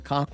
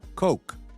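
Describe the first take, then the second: First: The vowel is short, not an 'oh' sound. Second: The vowel is a clear, long 'oh' sound. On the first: The speaker calls it wrong. "they pronounce it" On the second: The speaker calls it right. "If you say Coke, oh, oh, oh, co, Coke"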